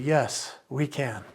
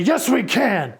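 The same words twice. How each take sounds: First: The phrase is said quietly. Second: The phrase is said loudly. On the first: "Or should I talk quieter and say" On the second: "should I speak louder here and say"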